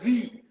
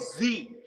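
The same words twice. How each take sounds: First: The letter is said as zee. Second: The letter is said as zed. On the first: This is how the speaker says it. The speaker calls it right. "The letter is Z" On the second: This is how British people say it. The speaker calls it wrong. "Y'all don't say Z"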